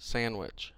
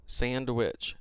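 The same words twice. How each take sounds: First: "Sandwich" with no D, san-wich; silent D. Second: "Sandwich" with an audible D, sand-wich; D sounded. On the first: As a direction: drop the D from Sandwich. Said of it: "the D is silent". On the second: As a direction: pronounce the D in Sandwich. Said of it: "They're trying to say the D is silent". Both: Shown as a demonstration.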